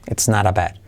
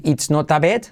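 First: "it's not a bed" joined as "ets narabad", falling lower; linked, soft R. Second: "it's not a bed" with clear I and hard T in "not"; unlinked, hard T. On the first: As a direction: turn "not a" into "nara", E for I. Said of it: "intenta unirlo así". ("it's not a bed" unido, como "ets narabad") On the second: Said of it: "No decir". ("it's not a bed" con T marcada, sin unir) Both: Shown as a demonstration.

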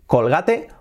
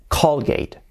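First: "Colgate" as "col-GA-te"; "Colgate" in three Spanish syllables; Spanish-style Colgate. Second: "Colgate" as "COL-geit"; English-style Colgate. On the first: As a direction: say "Colgate" with a sounded final e. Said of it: "Cambia, ¿verdad?". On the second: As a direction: say "Colgate" in two syllables. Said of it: "Así sería, Colgate". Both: Shown as a demonstration.

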